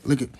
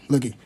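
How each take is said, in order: Both takes have the same delivery.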